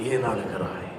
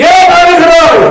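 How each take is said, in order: First: Much lower and softer, almost breathed "ஏன் அழுகிறாய்?"; soft low voice of God; hushed tender question. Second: Much higher and louder "ஏன் அழுகிறாய்?" with the stress on ஏன்; loud insistent voice of God; booming question. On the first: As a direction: murmur it gently like God to a weeping child. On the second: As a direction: call it out from the pulpit. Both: Acted. God voiced asking why.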